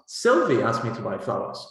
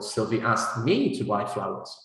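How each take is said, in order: First: The main stress falls on Sylvie. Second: The main stress falls on me. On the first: It answers who did the asking. "you will have to stress Sylvie" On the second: It answers who was asked, not someone else. "not you"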